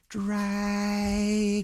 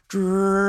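First: It is said at a normal, quiet volume. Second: It is said a little louder.

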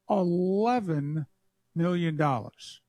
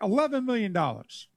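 First: It is said slowly. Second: It is said at normal speed.

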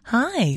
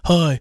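First: The voice sounds much more feminine. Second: The voice sounds less feminine.

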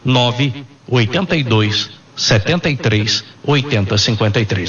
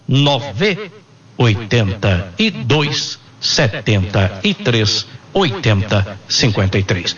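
First: The number is said at normal speed. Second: The number is said slowly.

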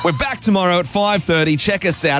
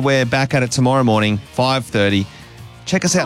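First: It is said in a lively, energetic way. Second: It is said in a flat, low-energy way.

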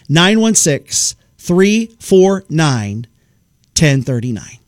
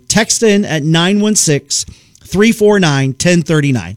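First: The number is said slowly and clearly. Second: The number is said at normal speed.

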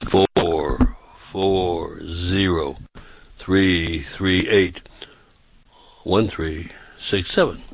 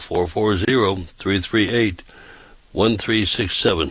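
First: The number is said at a slow pace. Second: The number is said at a fast pace.

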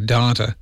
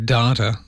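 First: It is said with an Australian accent. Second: It is said with an American accent.

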